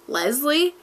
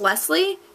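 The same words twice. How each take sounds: First: The middle consonant is a buzzing Z sound. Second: The middle consonant is a hissing S sound. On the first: The speaker calls it wrong. "misplace the S in my name as like, with like a Z" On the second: The speaker calls it right. "So instead of saying Leslie"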